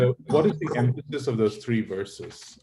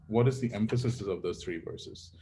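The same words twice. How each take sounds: First: Raised, louder question leaning on "is"; pressing question. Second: Said in the usual way. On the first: Real, not acted. Teacher pressing the class on the verses, louder. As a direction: push the students with "what is the emphasis".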